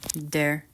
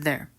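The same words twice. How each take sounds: First: The word begins with a D sound. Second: The word begins with a TH sound. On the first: This is a different regional dialect. "she pronounces them like T's and D's" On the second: This is the common local accent. "The other Canadians pronounce them like, well, T H's"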